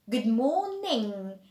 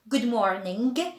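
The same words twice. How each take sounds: First: It ends in a nasal sound without g. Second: A hard g sound is released at the end. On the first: The speaker calls it right. "so we'd say ing" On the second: The speaker calls it wrong. "we do not say good morning"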